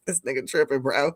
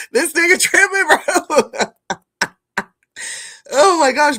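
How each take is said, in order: First: Said in the usual way. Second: Higher, louder, cracking up on the words; laughing disbelief. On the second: Real, not acted. Streamer repeating his own joke to chat, laughing. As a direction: say it again but lose it laughing.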